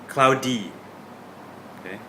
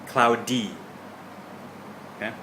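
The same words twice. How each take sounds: Both takes have the same delivery.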